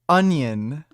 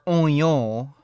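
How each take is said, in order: First: It is said in a plain, unaccented way. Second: It is said with an imitated French-style accent.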